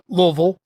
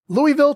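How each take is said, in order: First: It is said the local Kentucky way. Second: It is said the general, non-local way.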